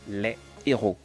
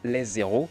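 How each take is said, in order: First: No z sound links les to héros. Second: A z sound links les to héros. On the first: The speaker calls it right. "mais plutôt les héros" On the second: The speaker calls it wrong. "on ne peut pas dire les héros"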